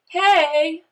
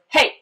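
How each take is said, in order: First: The pitch bends upward on the word. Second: The word is cut off short and abrupt. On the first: It is a friendly greeting. "I've bent that word up" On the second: It tells someone to stop. "I can clip it off"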